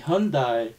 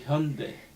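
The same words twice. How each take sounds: First: The word ends with an 'eye' vowel sound. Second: The word ends without an 'eye' vowel sound. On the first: This is how many English speakers say it. The speaker calls it wrong. "many people calling Hyundai" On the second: This is how it is said in Korea. The speaker calls it right. "but in Korea we call Hyundai"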